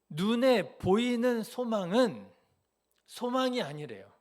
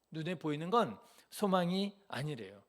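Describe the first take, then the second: First: 눈에 slow, loud and high, then 소망이 fall back down; emphatic preaching. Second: Said in the usual way. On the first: Shown as a demonstration. Preacher drives home 눈에 to the congregation, slow and loud. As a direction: drag out 눈에 보이는 소망은 and land it hard. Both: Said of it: "잘 생각해 보세요".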